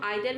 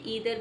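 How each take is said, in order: First: The first vowel sounds like 'eye'. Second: The first vowel sounds like 'ee'. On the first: "इसको हम आइदर भी बोलते हैं" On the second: "ईदर भी बोलते हैं"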